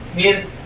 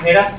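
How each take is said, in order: First: It is said as one syllable, hirs. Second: It is said as two syllables, heras. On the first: The speaker calls it right. "लेकिन सही लफ्ज क्या है? हिर्स" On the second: The speaker calls it wrong. "देहातों में चले जाइए तो वहां हेरस बोलते हैं"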